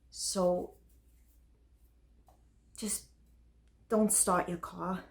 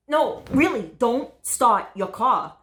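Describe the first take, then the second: First: Soft, resigned plea; subdued warning. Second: Insistent, raised-pitch warning; urgent warning. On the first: Date parting after the bomb confession, soft subdued warning. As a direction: let the warning drop away quietly. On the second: Date warning about the car bomb, urgent and insistent. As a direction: stop them with a firm, higher voice. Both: Acted.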